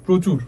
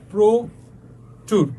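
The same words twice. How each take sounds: First: Said in the usual way. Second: প্রচুর very slowly split, "pro... chur"; broken into syllables. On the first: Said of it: "অ এর মতো থাকবে না". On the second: Shown as a demonstration. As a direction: stretch "pro" in প্রচুর, long pause, then "chur". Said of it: "অ change হয়ে যাবে".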